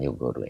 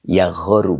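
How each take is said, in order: First: The first vowel is a 'u' sound. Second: The first vowel is an 'a' sound. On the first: The speaker calls it wrong. "bukan yugharu" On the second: The speaker calls it right. "Yaghoru bukan yugharu ya"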